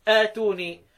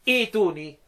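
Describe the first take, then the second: First: The word begins with a long 'aa' sound. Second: The word begins with an 'ee' sound. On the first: "بقطعهما ... فيها مد بدء" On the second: "لازم هبداها بهمزه الوصل ابدلها ياء"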